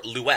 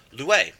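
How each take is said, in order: First: "Lue" in an alternate pronunciation; other pronunciation. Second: "Lue" said firmly as a command; command form Lue. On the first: Teacher offering another way to say "Lue". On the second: Teacher demoing the Greek command "Lue". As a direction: give "Lue" as a short firm order. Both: Shown as a demonstration. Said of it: "depending on how you want to pronounce that".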